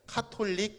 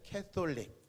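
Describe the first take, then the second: First: It is said with a plain Korean accent. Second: It is said with a rolled, English-like accent. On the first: "한국말로 하면" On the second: "발음을 좀 굴리면"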